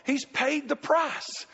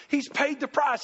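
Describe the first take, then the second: First: "He's paid the price" stretched out slowly, each word weighted; slow emphatic. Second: Said in the usual way. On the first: Real, not acted. Preacher slowly stressing to the church that the price is paid. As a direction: let it sink in, word by word. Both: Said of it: "You know what God's done".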